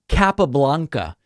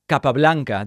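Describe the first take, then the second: First: The name is said with an English pronunciation. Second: The name is said with a Spanish pronunciation. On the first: "dude, don't you speak Spanish?" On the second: "If you're speaking English, you don't need to do that"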